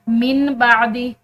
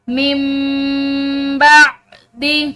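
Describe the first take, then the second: First: A clear n sound comes before the b. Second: An m sound comes before the b. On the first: The speaker calls it wrong. "इस तरह नहीं पढ़ेंगे" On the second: The speaker calls it right. "बल्कि मिम, मीम के बाद मीम को अदा करेंगे"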